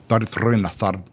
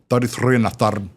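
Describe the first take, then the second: First: It is said in a Scottish accent. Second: The same.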